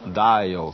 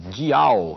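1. A palavra é dita com pronúncia inglesa. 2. A palavra é dita com pronúncia portuguesa. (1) "que é a pronúncia inglesa" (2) "a pronúncia é igual a nossa"

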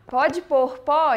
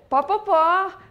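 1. Cada palavra é dita completa e separadamente. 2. As palavras são encurtadas e ditas juntas. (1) "falar tudo expressamente" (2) "a gente abrevia tudo que pode abreviar"

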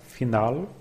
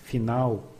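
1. O L final é pronunciado claramente. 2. O L final soa suavizado como um W. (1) "We could expect a pronunciation like final" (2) "but in everyday language it becomes final"

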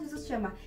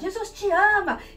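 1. É dito com um tom suave e gentil. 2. É dito com um tom raivoso e agressivo. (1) "mas eles não falam assim" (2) "é com raiva"

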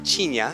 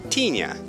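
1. Pronuncia-se com sotaque paulistano. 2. Pronuncia-se com sotaque nordestino. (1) "eles falam tinha em São Paulo" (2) "aqui tinha"

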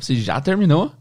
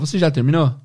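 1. A pergunta é feita com um tom de surpresa. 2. A pergunta é feita com um tom neutro. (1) "Olha a entonação, é tipo uma surpresa" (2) "Você quer saber se a pessoa já concluiu"

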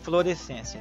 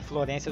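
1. A palavra é dita por inteiro, com todas as sílabas. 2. A palavra é dita encurtada, com sílabas omitidas. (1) "mas é fluorescência" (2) "É Florência o tempo todo"

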